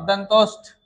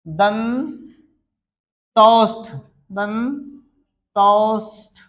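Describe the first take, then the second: First: Said in the usual way. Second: दंतोष्ठ stretched syllable by syllable, very slow; drawn-out pronunciation. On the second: Shown as a demonstration. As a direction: spell out दंतोष्ठ by sound, dragging each syllable. (दंतोष्ठ को बहुत धीरे खींचकर बोलें) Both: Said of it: "क्या बोलते हैं जी?".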